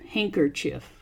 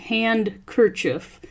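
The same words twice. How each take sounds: First: The first part sounds like 'hank'. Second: The first part sounds like 'hand'. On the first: The speaker calls it right. "it's pronounced hanker" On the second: The speaker calls it wrong. "It looks like handkerchief"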